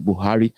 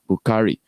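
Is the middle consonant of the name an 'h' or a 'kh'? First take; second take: h; kh. First: The middle consonant is a plain 'h' sound. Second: The middle consonant is a rough 'kh' sound. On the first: This is the form adapted to local speech. "That's how they removed the K and left uh, the H" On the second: This is the original form of the name. "It was meant to be Bukhari"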